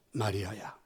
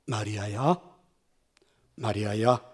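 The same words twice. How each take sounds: First: The name almost breathed, much softer and lower; barely spoken. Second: Calling Mary's name gently, lower and softer; a risen teacher softly calling a grieving woman by name; soft tender call. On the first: Jesus calls Mary a last time, barely audible. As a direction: let the last call fade to nearly nothing. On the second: Jesus gently calls Mary, soft and tender. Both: A narrator's reading. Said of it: "그분이 부드러운 소리로 이렇게 말씀하셨습니다".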